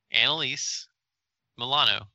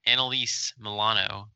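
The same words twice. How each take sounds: First: "Annalise ... Milano" in two parts, higher on "Annalise"; each name set apart for a listener who misheard; clarifying. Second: Said in the usual way. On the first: Shown as a demonstration. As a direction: separate "Annalise" and "Milano" with a clear pause.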